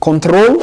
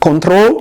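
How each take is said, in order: Both takes have the same delivery.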